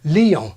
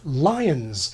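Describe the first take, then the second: First: The name is said closer to the French. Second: The name is said in an anglicized way. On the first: It is the form used nowadays. "something more like Lyon" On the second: It is the older recommended English form.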